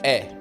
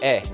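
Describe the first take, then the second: First: The vowel is short and flat. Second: The vowel is short and flat.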